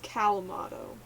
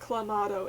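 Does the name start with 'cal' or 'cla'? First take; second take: cal; cla. First: The name begins with the sounds 'cal'. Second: The name begins with the sounds 'cla'. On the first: The speaker calls it right. "It's Calmato" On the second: The speaker calls it wrong. "I'm saying it wrong. It's not Clamato"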